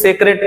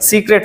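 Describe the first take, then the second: First: The first vowel is a short 'eh' sound. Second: The first vowel is a long 'ee' sound. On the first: The speaker calls it wrong. "कुछ लोग इसको सेक्रेट पढ़ते हैं" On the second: The speaker calls it right. "सीक्रेट सही"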